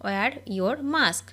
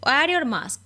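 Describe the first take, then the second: First: Very slow, word by word; each word drawn out for learners to copy; slow dictation. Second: Said in the usual way. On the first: Shown as a demonstration. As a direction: spell it out slowly for the class. Repeated slowly for learners.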